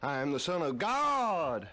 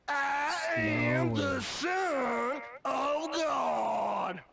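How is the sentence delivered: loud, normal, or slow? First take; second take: normal; slow. First: It is said at normal volume and speed. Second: It is said more slowly than before.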